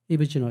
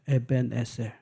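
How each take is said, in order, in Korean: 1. 이 이름은 영어식으로 발음합니다. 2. 이 이름은 히브리식으로 발음합니다. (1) "이건 영어 발음이고" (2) "이거 히브리어입니다"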